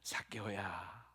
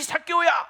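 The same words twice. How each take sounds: First: It is called out in a soft, warm voice. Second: It is called out in an angry, harsh voice. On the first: The caller cares for the person. The speaker calls it right. "정말 부드러운 목소리로, 따뜻한 목소리로" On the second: The caller is irritated with the person. The speaker calls it wrong. "막 승질 내면서"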